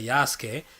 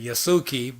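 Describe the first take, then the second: First: The name is pronounced without the Americanized ending. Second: The name is pronounced the Americanized English way. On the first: This is how the speaker himself says it. "but I say Yasuke" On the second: This is how English speakers might say it. "in American and stuff, or in English they might pay, say Yasuki"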